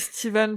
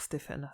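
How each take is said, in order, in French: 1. Le nom est prononcé à l'américaine. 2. Le nom est prononcé à la française. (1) "j'ai envie de le dire à l'américaine" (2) "on peut le dire à la française"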